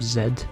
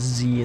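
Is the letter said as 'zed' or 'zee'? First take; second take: zed; zee. First: The letter is said as 'zed'. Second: The letter is said as 'zee'. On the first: "instead of Z" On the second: "Why do Americans pronounce it Z"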